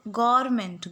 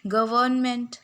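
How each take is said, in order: First: "गवर्नमेंट" said as गोरमेंट, the r and v run together; clear dictation. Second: "गवर्नमेंट" said in full, गवर्नमेंट, with every syllable clear; careful pronunciation. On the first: ("गवर्नमेंट" ऐसे बोलो: गोरमेंट) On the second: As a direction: spell out "गवर्नमेंट" syllable by syllable, गव-र्न-मेंट. ("गवर्नमेंट" पूरा साफ़ बोलो: गव-र्न-मेंट) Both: Shown as a demonstration. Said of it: "गवर्नमेंट बोलते हैं हम लोग".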